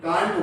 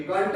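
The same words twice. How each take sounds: First: कांट with a long open "aa", British style; British pronunciation. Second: कंट with a short flat vowel, American style; American pronunciation. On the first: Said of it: "ये British word का sound है". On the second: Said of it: "तो ये American है". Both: Shown as a demonstration.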